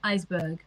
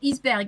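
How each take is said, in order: First: It is pronounced the English way. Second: It is pronounced the French way. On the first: "so I would say iceberg" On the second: "In French, we would say iceberg"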